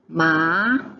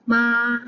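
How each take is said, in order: First: It is said with the second tone. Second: It is said with the first tone.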